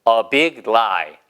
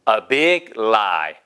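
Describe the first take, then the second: Both takes have the same delivery.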